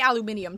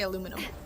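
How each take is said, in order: First: It has five syllables, ending in -inium. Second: It has four syllables, ending in -inum. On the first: "we don't say aluminium" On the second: "We say aluminum"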